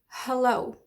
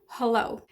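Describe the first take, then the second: First: The first vowel is a weak schwa. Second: The first vowel is a weak schwa.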